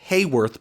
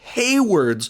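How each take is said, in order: First: The name ends with a 'worth' sound. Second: The name ends with a 'ward' sound. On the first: The speaker calls it wrong. "not Hayworth" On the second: The speaker calls it right. "but Hayward's office"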